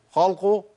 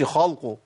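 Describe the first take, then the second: First: خلقه with a thin, light lam; correct light lam. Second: خلقه with a thick, emphatic lam; wrong heavy lam. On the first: Teacher gives the correct light-lam version. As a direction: keep the lam in خلقه light between heavy letters. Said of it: "اللام مش مفخمة". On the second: Teacher shows the mistake of a heavy lam. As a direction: darken the lam in خلقه on purpose. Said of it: "ما أقولش". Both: Shown as a demonstration.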